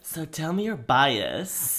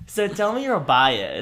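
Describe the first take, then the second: First: It is said in a sultry, seductive voice. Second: It is said in a plain, normal voice.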